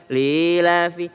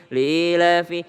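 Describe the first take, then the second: Both takes have the same delivery.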